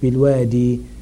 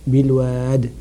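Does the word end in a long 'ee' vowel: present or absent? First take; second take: present; absent. First: The word ends with a long 'ee' vowel. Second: The word ends without any final vowel. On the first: "The word is" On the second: "the ya is taken away to make it easy"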